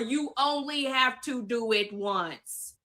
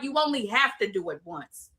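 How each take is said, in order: First: It is said slowly and deliberately. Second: It is said at a normal speed.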